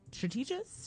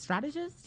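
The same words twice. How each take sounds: First: "strategist" mispronounced as struh-TEE-jist; botched pronunciation. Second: Said in the usual way. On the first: Real, not acted. Unsure storyteller tripping over a word, "strategist" said struh-TEE-jist. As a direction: stumble on "strategist", stressing a long TEE in the middle.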